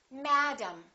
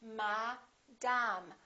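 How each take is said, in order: First: The first vowel is stressed, the second reduced. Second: Both vowels are full and equally strong. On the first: "one vowel is stressed and one vowel is reduced" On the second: "In some languages, each vowel is pronounced the same way. In some languages, they say"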